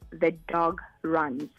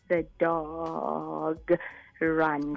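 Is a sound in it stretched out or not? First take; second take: not stretched; stretched. First: It is said smoothly with no stretched sounds. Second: Part of a word is drawn out long.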